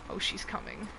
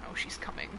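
First: Said in the usual way. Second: Whispering. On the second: Real, not acted. Hiding from monster, whispers warning.

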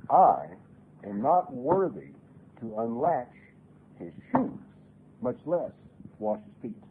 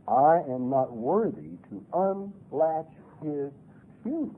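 First: Humble quote. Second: Slow, deliberate quoting; humble quote. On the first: Preacher quoting John, hushed and humble. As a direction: let John's humility come through slowly. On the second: Preacher repeating John's words to the congregation, slow and humble. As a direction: lay each word of the quote down slowly. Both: Acted.

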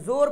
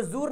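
First: जोर with an o, "zor"; correct unstretched reading. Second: जूर with oo, "zoor"; wrong stretched reading. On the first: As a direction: say जोर with o, not oo. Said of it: "जोर पढ़ रहे हैं". (जोर में ओ की आवाज़) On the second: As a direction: say जूर with an oo vowel. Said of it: "इसको जूर नहीं पढ़ रहे हैं". (जूर में ऊ की आवाज़) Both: Shown as a demonstration.

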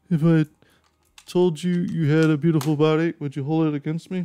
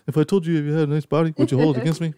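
First: Higher, teasing flirty line; smooth pickup line. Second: Quick higher flirty line; pickup line demo. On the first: Pretend. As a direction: lay on the charm. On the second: Shown as a demonstration. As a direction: pitch it to the guys. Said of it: "so use that, guys".

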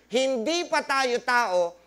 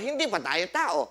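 First: Hindi pa tayo tao spelled out slowly, stress on pa; slow emphasis. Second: Said in the usual way. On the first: Shown as a demonstration. Preacher repeats the key line to the congregation, slow and emphatic. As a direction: drive home every word of hindi pa tayo tao. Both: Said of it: "Which means".

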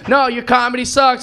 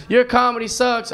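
First: Higher, louder mock heckle; acted heckler raising their voice; insistent heckler. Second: Higher-pitched acted jibe; mock lady heckler, moderately voiced; heckler's complaint. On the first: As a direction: throw the insult back harder. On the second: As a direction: heckle without shouting. Acted heckler, first milder take.

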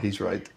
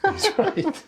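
First: Said in the usual way. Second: Laughing through the words. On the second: Real, not acted. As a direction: breaks into a laugh mid-line. Repeats the line, laughing through it.

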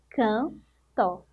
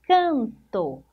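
First: "Canto" as two parts, can, pause, to; split into syllables. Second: Said in the usual way. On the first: Shown as a demonstration. Teacher counting two syllables for pupils, "Canto" split apart. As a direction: break "Canto" after "Can" with a clear gap. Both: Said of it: "Duas sílabas".

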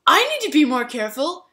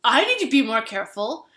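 First: Higher and louder, pushier "I need to be more careful"; mock insistent self-blame; overdone contrite. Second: Retold apology, a bit louder; lightly voiced apologetic stranger; mock contrite. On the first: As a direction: ham up the repeated apology. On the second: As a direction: imitate the spiller owning up. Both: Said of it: "the guy who spilled the drink said".

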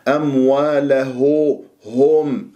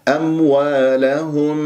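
First: أمواله هم with the meem blurred, drawn out slowly; wrong ghunna on meem. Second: أموالهم with the meem fully shown, slow; clear meem. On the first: Teacher demonstrating the wrong way for students, slow. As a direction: demo the wrong reading of أمواله هم, slow and nasal. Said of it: "خطأ". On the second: Teacher showing the correct meem to students, slow. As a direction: give أموالهم a clean closed-lip meem. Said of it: "ميم مظهرة". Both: Shown as a demonstration.

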